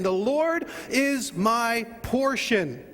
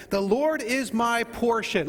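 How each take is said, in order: First: "The Lord is my portion" drawn out, heavy on "Lord"; slower declaration. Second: "The Lord is my portion" said slowly with weight on "Lord"; slow declaration. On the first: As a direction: stretch it out, each word weighed. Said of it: "Let's say that again". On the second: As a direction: lead the congregation, firm and slow. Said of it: "Say that with me". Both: Shown as a demonstration.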